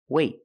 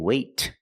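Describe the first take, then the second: First: The final T is held without release. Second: The final T is released with air. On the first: The speaker calls it right. "Then we do a stop T. That means you put your tongue up in the T position, but you don't release" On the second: The speaker calls it wrong. "I don't say wait. I don't release the T"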